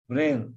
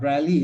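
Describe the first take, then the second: First: It ends in a plain 'l' sound, one syllable. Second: It ends with an added 'lee' syllable. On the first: The speaker calls it right. "So it's just Braille" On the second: The speaker calls it wrong. "not Braille"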